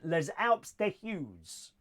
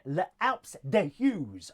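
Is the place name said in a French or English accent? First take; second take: French; English. First: The name is said in a French accent. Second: The name is said in a plain English accent.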